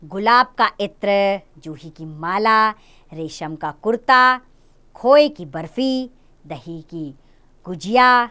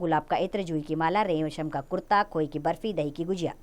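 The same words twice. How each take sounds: First: Short pauses separate each item in the list. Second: The items run together quickly without any pauses. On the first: The speaker calls it right. "इस अनुच्छेद में कई जगह विराम चिन्हों का प्रयोग हुआ है, जो मैंने बोलते हुए आपको समझा होगा" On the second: The speaker calls it wrong. "मैं कहीं नहीं रुकी, इसलिए मेरे बोलने में बहुत गति थी"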